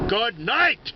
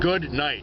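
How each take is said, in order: First: It is said loudly and forcefully. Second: It is said more quietly but firmly. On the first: "I didn't say it quite so loud. I didn't say it quite so forcefully" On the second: "But I did say it with conviction"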